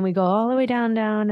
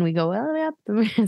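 First: Voice sinking with the move. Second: Voice rising with the move. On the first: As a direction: pitch drops on all the way down. Describing dance move going down. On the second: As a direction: pitch climbs on all the way up. Describing dance move going up. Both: Shown as a demonstration.

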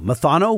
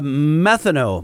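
First: "Methano" said as muh-THAH-no, rising; second-syllable stress. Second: "methano" said as METH-uh-no; first-syllable stress. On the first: Asking co-host which it is, "Methano" as muh-THAH-no. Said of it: "What do you think it is?". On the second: Puzzling over the subject line, "methano" as METH-uh-no. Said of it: "Is that methano or methano?". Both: Shown as a demonstration.

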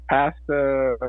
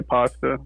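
First: Pasta said as PASS-ta; flat short a in pasta, as in cat. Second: Pasta said as PAHS-ta; broad-a pasta. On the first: Retold or imitated. Teasing how you guys say it, pasta as PASS-ta. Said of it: "You guys also say pasta". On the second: Shown as a demonstration. Showing how we say it, pasta as PAHS-ta. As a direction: open ah in the first syllable of pasta. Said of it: "we say pasta".

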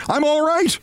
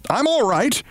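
First: High insistent call; insistent high reassuring yell. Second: High call to calm her; mock reassuring yell. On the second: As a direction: shout up that all is fine. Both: A narrator's reading. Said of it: "Briggs yelled to reassure her".

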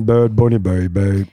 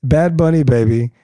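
First: Lightly imitating her sultry voice; man doing a woman's voice. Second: Lightly imitating her voice; man doing a woman's voice. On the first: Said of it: "With her voice". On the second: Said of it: "in her voice".

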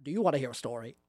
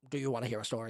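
First: Lightly creepy Grinch offer; a hint of sinister storyteller. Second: Low, soft, slumped question; subdued, slightly dejected offer; less creepy, deflated. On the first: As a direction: ask it with quiet, creepy relish. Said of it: "less creepy than you are right now". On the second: Acted. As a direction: ask it again with the creepy smile dropped. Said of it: "He stops smiling and sort of slouches".

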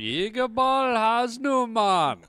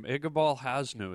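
First: High, loud, stretched-out mock Jamaican call; Jamaican-voiced yell. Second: Said in the usual way. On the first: Yelling at a boarding school classmate, mock Jamaican holler. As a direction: holler the name slowly in a put-on Jamaican accent. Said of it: "I would just yell at him". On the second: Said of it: "That was his name".

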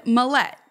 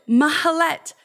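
First: "Malet" said the American way, flat even stress, no Ethiopian emphasis; American pronunciation. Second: "Mahalet" in three clear syllables, ma-ha-LET, with Ethiopian emphasis, a little higher and louder; Ethiopian pronunciation. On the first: Retold or imitated. Girl giving her name the American way, "Malet" with plain even stress. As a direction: say "Malet" like an American kid would. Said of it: "with no Ethiopian accent".

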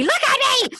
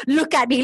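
First: Much higher, hammed-up repeat; mock insistent plea. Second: Said in the usual way. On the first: Man pleading with a tearful woman, high mock insistence. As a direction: imitate an insistent plea, pitch jumping up high.

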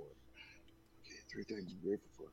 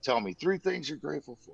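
First: Half-whispered echo while noting it down; much softer murmur to self; muttered repeat. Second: Said in the usual way. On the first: Retold or imitated. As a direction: repeat it under your breath as you write. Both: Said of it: "And then he's like".

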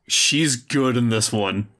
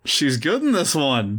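First: She's stressed, slow. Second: In stressed, falling end. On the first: Defending Alexa to his wife, stress on she's. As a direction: lean on the word she's. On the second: Repeating it to his wife, stress on in. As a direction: lean on the word in. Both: Shown as a demonstration.

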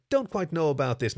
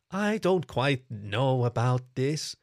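First: Said in the usual way. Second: Unsure, dragging each word out slowly; hesitant kitsune. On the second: Acted. Kitsune hesitating with the coyote god, slow and unsure.

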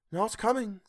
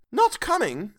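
First: Mrs Cratchit teasing. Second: Crestfallen Bob. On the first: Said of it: "said Missus Cratchit". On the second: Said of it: "with a sudden declension in his high spirits". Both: A narrator's reading.

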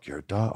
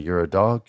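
First: Much softer, under the breath; muttered to himself. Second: Said in the usual way. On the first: Retold or imitated. Wrestler psyching himself up, repeating it softly to himself. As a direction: say it quietly as if talking yourself into it.

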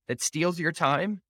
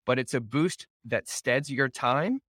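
First: "that steals your time" said slower and higher, leaning on "steals"; emphatic repeat. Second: Said in the usual way. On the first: Acted. Host reading a quote to listeners, slow emphatic repeat. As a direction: drag out "steals your time" to drive it home. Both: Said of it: "repeats phrase for emphasis".

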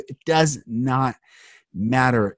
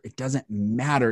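First: "It does not matter" with each word hit slowly and a pause before "matter"; slow, every word stressed. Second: Said in the usual way. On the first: Real, not acted. Repeating the point for emphasis.

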